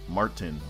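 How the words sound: The R after the vowel is pronounced. This is how American speakers say it. The speaker calls it right. "There's an R there. You're supposed to say Martin"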